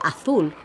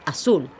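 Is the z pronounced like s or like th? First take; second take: th; s. First: The z sounds like an English th. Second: The z sounds like an s. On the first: This is the accent of Spain. "where we would pronounce it th" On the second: This is the Latin American accent. "Latin Americans pronounce the letter Z as an S"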